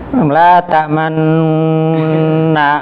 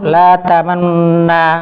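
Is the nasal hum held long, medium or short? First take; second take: long; short. First: The nasal hum is held too long. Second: The nasal hum is cut short and rushed. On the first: "nanti jadi empat harokat nanti" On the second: "jangan terburu-buru ... Malah kurang nanti"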